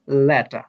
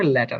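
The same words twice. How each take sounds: First: লেটা said without the final r, ending on a long open a; লেটা spoken the British way, no r at the end; British pronunciation. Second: লেটার said with the final r sounded clearly; লেটার spoken the Bangladeshi way, r pronounced at the end; Bangladeshi pronunciation. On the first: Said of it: "British English অনুযায়ী এটি হবে লেটা". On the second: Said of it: "বাংলাদেশের English অনুযায়ী এটা হবে লেটার". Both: Shown as a demonstration.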